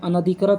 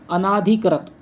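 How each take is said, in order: First: The vowel after 'an' is a short a. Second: The vowel after 'an' is a long aa. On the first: The speaker calls it right. "अनधिकृत होता है" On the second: The speaker calls it wrong. "यहाँ पर आ नहीं होता है"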